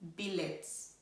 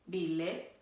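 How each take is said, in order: First: It is pronounced with English spelling-based sounds. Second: It is pronounced with a guessed Norwegian sound. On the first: "if you pronounce it as it is spelled in the English way" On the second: "the Norwegian pronunciation is pretty different"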